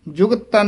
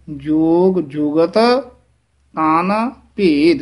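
First: ਜੁਗਤ ਤਨ run together, the two t sounds merged; wrong way. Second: Slow ਜੋਗ ਜੁਗਤ, pause, ਤਨ, pause, ਭੇਦ; separated consonants. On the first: Teacher shows the slurred ਜੁਗਤ ਤਨ to avoid. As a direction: blur ਜੁਗਤ into ਤਨ. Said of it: "ਜੁਗਤ ਤਨ ਨਹੀਂ ਕਹਿਣਾ". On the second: Teacher shows ਜੁਗਤ ਤਨ said separately. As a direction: sound each t of ਜੁਗਤ and ਤਨ apart. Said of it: "ਇਸ ਤਰ੍ਹਾਂ ਬੋਲਣਾ ਹੈ". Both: Shown as a demonstration.

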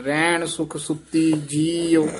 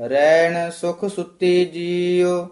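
First: Slight pause before ਜੀਉ; ਜੀਉ set apart. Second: Flowing chant with held ending; scripture recitation. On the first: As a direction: hold back briefly, then say ਜੀਉ separately. (ਜੀਉ ਤੋਂ ਪਹਿਲਾਂ ਠਹਿਰਾਅ) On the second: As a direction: carry the line through to ਜੀਉ. (ਹੇਕ ਨਾਲ ਪਾਠ) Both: Shown as a demonstration. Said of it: "ਉਸ ਤੋਂ ਪਹਿਲਾਂ ਥੋੜਾ ਜਿਹਾ ਠਹਿਰਾ".

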